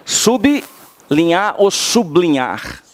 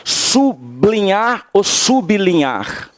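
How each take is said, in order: First: "Sublinhar" primeiro com "i" inserido, subilinhar, depois colado, sublinhar; su-bi-linhar versus sub-linhar. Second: "Sublinhar" dito sem vogal e depois com "i" inserido: sub-li-nhar, su-bi-li-nhar; sub-linhar versus su-bi-linhar. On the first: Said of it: "As duas formas são corretas". (as duas pronúncias de "sublinhar", devagar) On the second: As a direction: contraste "sublinhar" colado e "subilinhar" com i extra. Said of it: "Como é que eu falo?". (duas pronúncias de "sublinhar", devagar) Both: Shown as a demonstration.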